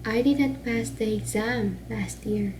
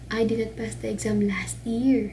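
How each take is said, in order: First: The emphasis falls on the word exam. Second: The emphasis falls on the words last year. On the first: He may have passed a different exam. "diri daw ang accent or, or emphasis sa exam" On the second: He passed it at a different time. "ang emphasis ka na sa last year"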